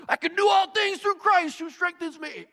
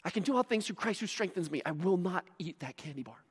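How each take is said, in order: First: High strained mock lifter's voice; hammed-up high-pitched gym motivation; weight-room hype. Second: Hushed self-talk; quiet, hammed-up willpower mantra; mock dieter's resolve. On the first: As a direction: say it like straining under a barbell. Imitates verse shouted in weight room. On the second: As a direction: recite it softly to yourself, resisting temptation. Mimics dieter reciting verse to resist.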